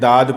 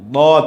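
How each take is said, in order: First: The letter name is said with a plain, light sound. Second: The letter name is said with a heavy, thick sound. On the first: The speaker calls it wrong. "इस तरह से नहीं पढ़ना है।" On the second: The speaker calls it right. "इसको मोटी आवाज़ में ज़बान का किनारा दाढ़ से टच करके पढ़ना है।"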